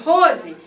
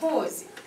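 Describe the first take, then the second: First: The name is called in a stern, threatening tone. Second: The name is called in a soft, gentle tone. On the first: The child is being threatened and should be afraid. The speaker calls it wrong. "Terror, não era medo não, era terror" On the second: The child is being treated with respect and warmth. The speaker calls it right. "Ele me mostrava o respeito, me respeitando"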